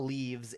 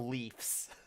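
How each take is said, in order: First: The word ends with a voiced 'vz' sound. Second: The word ends with a voiceless 'fs' sound. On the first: The speaker calls it wrong. "No, it's not leaves" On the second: The speaker calls it right. "it's the Leafs"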